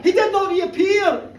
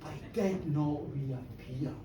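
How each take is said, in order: First: Higher, louder, slowed with a laugh; loud punchline. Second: Hushed dread. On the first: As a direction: land the punchline big. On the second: First take, hushed. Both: Acted.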